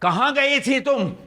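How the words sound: The line is delivered in an overdone, exaggerated way. The speaker calls it wrong. "और गलत ढंग से करूंगा... मगर ज्यादा है, उस वजह से गलत है"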